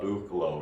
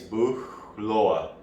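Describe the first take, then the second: First: The name is pronounced the English way. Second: The name is pronounced the German way. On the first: "but in English it would be like book uh, Buchlo" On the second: "I wanted to butcher in German. I think it's Buchloe"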